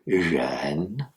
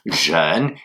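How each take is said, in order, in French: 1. Le premier son est entre le j français et le r français. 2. Le premier son est comme un j français. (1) "c'est jeune, entre les deux" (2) "il ne s'agit pas de dire jeune"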